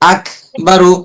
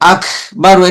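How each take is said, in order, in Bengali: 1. ব্যঞ্জনটি গভীর গলার q ধ্বনি। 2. ব্যঞ্জনটি খরখরে kh ধ্বনি। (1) "আর যদি কাপ বলি" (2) "এটা কিন্তু খ"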